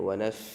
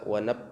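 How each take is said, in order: First: The f sound is held with air flowing. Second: The f sound is cut off abruptly. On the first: The speaker calls it right. "Harus terus mengalir. ... halus" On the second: The speaker calls it wrong. "tidak boleh berhenti di saat menahan huruf fa ... itu tidak boleh"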